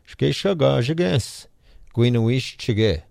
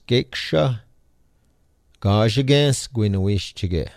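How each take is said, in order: First: The phrase is spoken at a faster pace. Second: The phrase is spoken at a slower pace.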